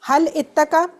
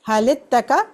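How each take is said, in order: First: The words are said apart, with the initial glottal catch. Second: The words are linked with an i, no glottal catch. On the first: "या आप बोलें हल इत्तका" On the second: "जब मिलाएंगे ... लाम को आप दे देंगे जेर"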